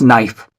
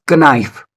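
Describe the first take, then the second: First: Knife with a silent K, "nife"; correct knife. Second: Knife with the K sounded, "kuh-NIFE"; wrong, spelled-out knife. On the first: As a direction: start knife straight on the N. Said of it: "it is pronounced as knife". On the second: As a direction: say a hard K before the N in knife. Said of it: "is not pronounced as knife". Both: Shown as a demonstration.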